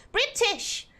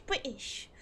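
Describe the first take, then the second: First: "British" with a crisp middle t; "British!" re-said cleanly, t fully sounded; corrected posh pronunciation. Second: "British" with the middle t dropped; "British" as Bri'ish; glottal-stop slip. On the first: Shown as a demonstration. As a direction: enunciate the t in "British". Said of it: "condescending in a British accent". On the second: Real, not acted. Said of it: "the British and the bottle of water".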